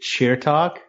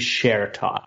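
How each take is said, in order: First: The first syllable sounds like 'cheer'. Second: The first syllable sounds like 'share'. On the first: The speaker calls it wrong. "when I was growing up, I would actually pronounce it cheer talk" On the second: The speaker calls it right. "the most accurate would probably be share talk, as if Cher had a talk show"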